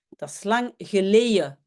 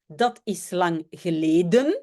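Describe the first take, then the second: First: The vowel in geleden sounds like 'eye'. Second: The vowels are plain standard Dutch vowels. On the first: "dans le centre, on va plutôt dire eye" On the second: "au lieu de dire"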